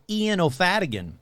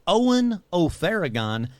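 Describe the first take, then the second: First: The surname has a d sound in the middle. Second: The surname has an r sound in the middle. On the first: The speaker calls it wrong. "not how I've been pronouncing it for so many episodes" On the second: The speaker calls it right. "I said Owen O'Farragon"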